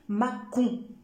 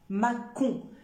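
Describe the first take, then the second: The two takes are said the same way.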